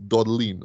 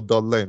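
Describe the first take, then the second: First: "Dodline" ending in "-leen"; "Dodline" with a long ee in the last syllable; alternative pronunciation. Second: "Dodline" ending like "line"; "Dodline" with an eye vowel in the last syllable; alternative pronunciation. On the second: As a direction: say "Dodline" as DOD-lyne. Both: Shown as a demonstration. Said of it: "or Dodline".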